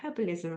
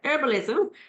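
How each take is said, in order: First: The word begins with an audible h sound. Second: The word begins with a silent h. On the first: This is the British way of saying it. "we pr pronounce it with the H in the U K" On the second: This is the American way of saying it. "in the U S they don't pronounce it with the H"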